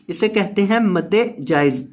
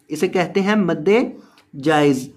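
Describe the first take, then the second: No difference in how they are said.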